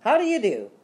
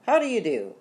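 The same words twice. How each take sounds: First: High, loud insistent greeting; much louder. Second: Higher-pitched, mildly worried greeting. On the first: Father greets Rita over the danger, louder and urgent. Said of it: "in a much louder voice". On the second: Father greets Rita to distract her, mildly worried. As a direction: greet with uneasy politeness, voice raised in pitch. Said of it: "in a worried voice". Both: A narrator's reading.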